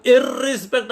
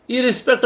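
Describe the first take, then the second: First: इरिस्पेक्ट with a long rolled double rr; doubled r, wrong. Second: इरिस्पेक्ट with one short r; single r, correct. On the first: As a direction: say इरिस्पेक्ट as irrrispect, holding the r. (इरिस्पेक्ट में र को दोहरा, लंबा बोलें) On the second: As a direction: say इरिस्पेक्ट as i-rispect, a single tap r. (इरिस्पेक्ट में एक ही छोटा र बोलें) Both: Shown as a demonstration. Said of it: "इरिस्पेक्ट नहीं बोलते हैं".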